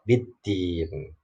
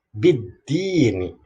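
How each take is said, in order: First: The word stops on the n, vowel lengthened. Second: The word ends with a short final vowel. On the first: The reading stops at this word. "Kalau dibaca waqaf" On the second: The reading continues on without stopping. "Kalau dibaca wa wasol"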